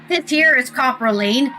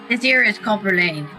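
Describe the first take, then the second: First: It is said in a put-on British accent. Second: It is said in the speaker's ordinary accent.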